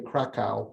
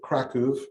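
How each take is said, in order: First: The name is said with an American pronunciation. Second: The name is said with a Polish pronunciation. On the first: "Americans would say Krakow" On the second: "I pronounce it Kraków. That's the way Polish people pronounce it"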